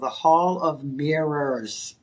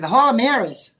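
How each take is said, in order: First: The R sounds are clearly pronounced. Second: The R sounds are dropped, Boston style. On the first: "I really had to pull those R's out" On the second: "that's the Boston accent"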